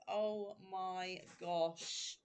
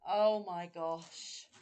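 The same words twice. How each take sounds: First: Hushed awe. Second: Slow, louder oh my gosh; louder awe. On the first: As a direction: breathe it out slowly, overwhelmed. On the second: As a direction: let the joy burst out. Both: Real, not acted. Moved by gifts.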